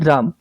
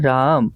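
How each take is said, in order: First: It is said short and angrily. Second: It is said drawn out and lovingly.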